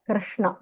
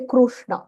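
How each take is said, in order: First: The vowel after 'kr' sounds like 'i'. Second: The vowel after 'kr' sounds like 'u'. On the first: The speaker calls it right. "kr ik plus r kr Krishna" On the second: The speaker calls it wrong. "We don't say Krushna"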